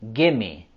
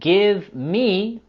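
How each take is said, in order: First: The two words are run together as gimme. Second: Both words are said fully and separately. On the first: "we can also pronounce in a reduced form" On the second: "With the words give me"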